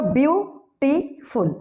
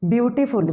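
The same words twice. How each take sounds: First: ब्यूटीफुल in three slow, separate beats, byu... tee... ful; split into syllables. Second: Said in the usual way. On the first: Shown as a demonstration. Teacher counting syllables aloud, ब्यूटीफुल broken as byu-tee-ful. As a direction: pause between each syllable of ब्यूटीफुल. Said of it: "कितने syllable आ रहा है". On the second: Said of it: "अगर मैं कहूँ ब्यूटीफुल".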